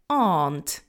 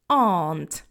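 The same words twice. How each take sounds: The two takes are said the same way.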